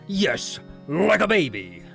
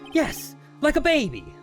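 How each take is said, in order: First: It is said in a gruff, earnest voice. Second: It is said in a plain, ordinary voice.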